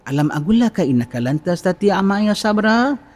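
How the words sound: The voice is soft and gentle. One prophet speaks to the other with affection. The speaker calls it right. "Kau kena cakap dengan suara lembut"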